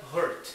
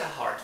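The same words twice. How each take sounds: First: "hurt" said in place of "heart"; heart mispronounced as hurt. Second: "heart" with its open vowel; the correct "heart", set against "hurt"; heart pronounced correctly. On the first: Teacher showing what the learner says instead, mistaken "hurt". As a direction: swap in the vowel of "hurt". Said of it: "você pronuncia hurt". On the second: Teacher explaining what the learner fails to say, correct "heart". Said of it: "você não pronuncia heart". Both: Shown as a demonstration.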